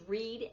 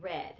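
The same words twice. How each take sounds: First: "read" said REED; "read" with a long ee; "read" rhyming with need; present-tense pronunciation. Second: "read" said RED; "read" with a short e; "read" rhyming with bed; past-tense pronunciation. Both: Shown as a demonstration. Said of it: "you say it differently".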